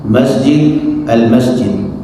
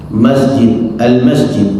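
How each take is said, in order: No difference in how they are said.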